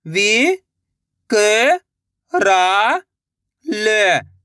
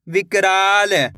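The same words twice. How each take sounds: First: "विकराल" very slowly, each syllable held; sounding out slowly. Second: Said in the usual way. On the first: Shown as a demonstration. Teacher sounding out a word for young readers. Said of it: "एक अक्षर का उच्चारण करके". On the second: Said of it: "लाके पढ़ना है".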